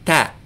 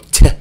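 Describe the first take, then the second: First: The T is said without a puff of air. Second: The T is said with a puff of air. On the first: The speaker calls it right. "make the T sound, but without the puff of air" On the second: The speaker calls it wrong. "make that little puff of air like an English T"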